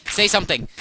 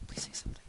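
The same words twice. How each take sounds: First: High, loud pleading yell; hammed-up loud begging; mock-desperate shout. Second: Soft, voiceless begging; hushed, toneless pleading; whispered plea. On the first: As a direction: shout it as an exaggerated demand. Pleads loudly with silent game animals. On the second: Pretend. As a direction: whisper it as a last mock plea. Same plea repeated in a whisper.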